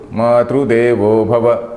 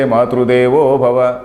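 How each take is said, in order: First: The stress falls on the first word, Matru. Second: The stress falls later, on Devo. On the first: Mother is God to this person. "the stress is on Matru" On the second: This person is God to his mother. "give that shift later"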